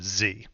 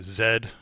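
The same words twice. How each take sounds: First: The letter is said the American way. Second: The letter is said the British way.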